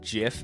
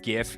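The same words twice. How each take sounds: First: The word begins with a soft J sound. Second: The word begins with a hard G sound. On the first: "is peanut butter" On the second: "is graphical interchange format"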